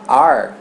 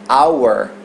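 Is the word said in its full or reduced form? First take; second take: reduced; full. First: It is reduced, sounding like 'are'. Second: It is said fully, like 'hour'. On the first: "no dia a dia a gente só fala are" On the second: "a gente aprende em inglês que o pronome nosso é our"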